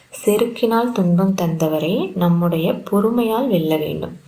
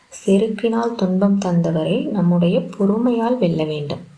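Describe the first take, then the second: Both takes have the same delivery.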